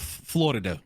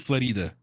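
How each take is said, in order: First: The stress is on the first syllable. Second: The stress is on the second syllable.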